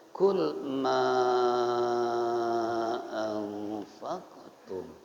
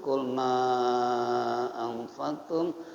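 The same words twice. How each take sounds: First: The long vowel is held for five beats. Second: The long vowel is held for four beats. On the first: "boleh lima" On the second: "boleh empat"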